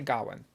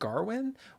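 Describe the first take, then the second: First: No R sound follows the first vowel. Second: An R sound follows the first vowel. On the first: This matches the spelling in the subtitles. "I'm going to say Gawain" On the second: This is how the actors seemed to say it in the film. "it seemed like they were putting an R in there, like Garwin"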